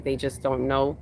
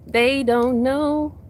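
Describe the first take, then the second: First: Said in the usual way. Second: They don't know, sung out high and slow; high drawn-out lament. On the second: Shown as a demonstration. Preacher to her live audience, high slow drawn-out lament. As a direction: stretch it high and slow like a sad refrain.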